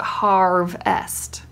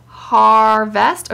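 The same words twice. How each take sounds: First: HARVEST divided after V: harv... est; slow HARV, then EST with no v; split harv-est. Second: HARVEST divided after R: har... vest; slow HAR, then VEST with the v starting it; split har-vest. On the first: Asking where the syllables divide, split after v. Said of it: "or is it harvest". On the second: Asking where the syllables divide, split before v. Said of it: "is it harvest or is it harvest". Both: Shown as a demonstration.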